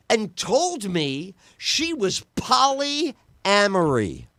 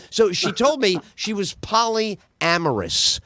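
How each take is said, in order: First: «polyamory» said as if it were the correct word; stretched «polyamory», slow and drawn out; mispronounced word. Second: «polyamorous» said carefully and slowly, the correct form; slow, deliberate «polyamorous»; corrected word. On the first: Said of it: "Uh, uh, polyamorous". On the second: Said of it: "the correct way to say the word". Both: Shown as a demonstration.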